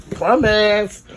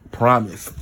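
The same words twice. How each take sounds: First: Sing-song Promise pitched higher; higher, drawn-out promise. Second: Said in the usual way. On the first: Shown as a demonstration. Promising viewers no more yawning, higher sing-song. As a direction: stretch the word Promise up high with a long s.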